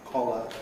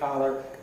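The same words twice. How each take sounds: First: It is said in a British accent. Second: It is said in an American accent. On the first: "you see I've got lip rounding for co" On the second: "Americans would say"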